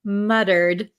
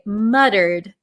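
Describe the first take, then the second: First: It is pronounced in an American way. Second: The same.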